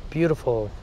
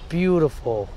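Both takes have the same delivery.

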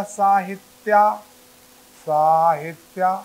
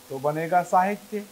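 First: साहित्या with a long final आ, slow and louder; wrong form demo. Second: Said in the usual way. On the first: Shown as a demonstration. Teacher showing students the wrong form साहित्या, slow and loud. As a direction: stretch the end of साहित्या into a long आ. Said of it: "साहित्य होता है कि साहित्या".

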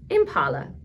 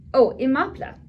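First: Impala said as im-PAH-la, the wrong reading; misread name. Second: Imapla said im-AH-pla, the right reading; corrected name. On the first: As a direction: read Impala as written by mistake. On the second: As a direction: fix it to Imapla, a bit louder. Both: Shown as a demonstration. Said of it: "I read that wrong".

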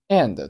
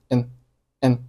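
First: Said in the usual way. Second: "n" as a short syllabic n for and; weak form. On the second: Shown as a demonstration. Teacher showing learners weak and, reduced to "n". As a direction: reduce and to a bare "n". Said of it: "And 做弱读".

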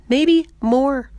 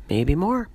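First: High, loud, excited realisation; louder, much higher, marvelling at herself; emphatic repeat. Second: Said in the usual way. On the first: Acted. [name] repeats it with more emphasis.

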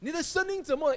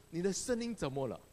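First: Higher and louder, the realization hits; surprised. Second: Said in the usual way. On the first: Retold or imitated. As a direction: ask it again in sudden astonishment.

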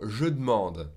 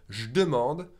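First: "je demande" said as "je d'mande"; E dropped from demande. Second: "je demande" said as "j'demande"; E dropped from je. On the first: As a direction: swallow the first e of demande in "je demande". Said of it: "or the E from demande". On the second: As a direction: swallow the e of je in "je demande". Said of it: "skip the E from the je". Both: Shown as a demonstration.

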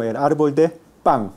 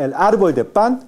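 First: "pan" held back, ending like pang; velar final n. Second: "pan" ending on a tongue-tip n; alveolar final n. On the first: Teacher models coastal name for breadfruit tree, velar "pan". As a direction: pause slightly, then "pan" with ng. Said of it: "sino el árbol de pan". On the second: Teacher contrasts breadfruit tree name, alveolar "pan". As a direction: say "pan" with a standard clean n. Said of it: "no se dice el árbol de pan". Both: Shown as a demonstration.

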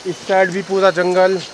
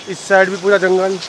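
No difference in how they are said.

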